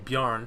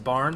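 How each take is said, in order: First: The name starts with a B-y sound. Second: The name starts with a plain B sound. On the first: The speaker calls it right. "Excuse me, Bjarn. The the y part of Bjarn is very important" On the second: The speaker calls it wrong. "he gets a little upset when you don't pronounce the y"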